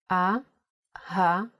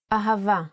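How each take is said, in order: First: Slow "A-ha-va" with a clear gap between syllables. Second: Said in the usual way. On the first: Shown as a demonstration. Teacher spelling the word with nikud, slowly syllable by syllable "A-ha-va". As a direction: spell out "A-ha-va" slowly in three separate pieces. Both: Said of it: "let's spell ahava with the full nikud".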